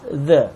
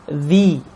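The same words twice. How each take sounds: First: The vowel is a short 'uh' sound. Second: The vowel is a long 'ee' sound. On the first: The next word starts with a consonant. "traditional the" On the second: The next word starts with a vowel. "the long E"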